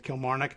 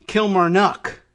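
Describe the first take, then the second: First: "Kilmarnock" stressed on the middle syllable "mar"; Irish-style "Kilmarnock", softer. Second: "Kilmarnock" stressed on "Kil" and "nock"; louder "Kilmarnock", both ends hit; stress first and last. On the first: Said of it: "where I would put it in the middle". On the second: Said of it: "emphasis on the first and last syllables". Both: Shown as a demonstration.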